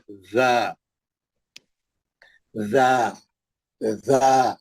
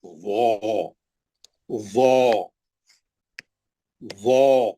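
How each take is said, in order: First: ज़ा low, with a held, unrounded "a"; thin. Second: वो as a heavy "zaw", low and rounded; thick. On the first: Teacher drills the thin letter with students, unrounded and low. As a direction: buzz the z into a spread, thin ज़ा. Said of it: "पतला". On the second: Teacher drills the heavy letter with students, thick and low. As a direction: round the mouth on a buzzing, heavy वो. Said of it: "ज़ोए पढ़ेंगे आप". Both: Shown as a demonstration.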